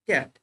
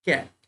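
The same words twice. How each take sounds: First: ক্যাট again with the English a, cat; ক্যাট as the English word for the class; repeated word demo. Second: ক্যাট with a flat English a, cat; ক্যাট spoken as the English word; English word demo. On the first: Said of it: "ঠিক আছে?". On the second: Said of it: "যেমন সিএটি". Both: Shown as a demonstration.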